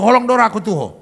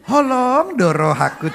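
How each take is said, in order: First: It is said bluntly and plainly. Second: It is said in a sweet, sugary way. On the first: The speaker calls it right. "orang Batak nadanya memang gitu" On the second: The speaker calls it wrong. "nggak bisa di"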